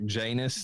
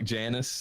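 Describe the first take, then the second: First: The name ends like the word anus. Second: The name does not end like the word anus.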